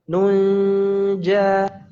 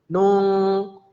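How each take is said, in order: First: The n is hidden, moving toward the j. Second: The n floats loosely, sounding like ng. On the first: The speaker calls it right. "Yang benar ikhfa" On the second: The speaker calls it wrong. "ngambang gitu ya"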